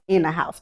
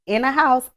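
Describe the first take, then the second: First: "in a house" dropped low and firm; low emphatic repeat. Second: House said higher and rising; "house" lifted high for emphasis; stress on house. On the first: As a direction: repeat "in a house" lower, serious. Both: Shown as a demonstration. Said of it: "for real, for real".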